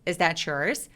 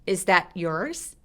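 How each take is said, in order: First: The t links into yours as a ch sound. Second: The t is held and cut off, separate. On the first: "chores 라고 부드럽게 ch처럼 연결하게 됩니다" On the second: "이 t만 특별하게 소리를 끊어버리고 따로따로 발음할 때"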